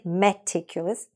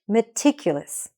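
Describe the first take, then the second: First: The first syllable has a full, clear vowel. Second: The first syllable is shortened and reduced. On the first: The speaker calls it wrong. "even though it starts with M E T, don't say meticulous" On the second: The speaker calls it right. "Just say M. Shorten it"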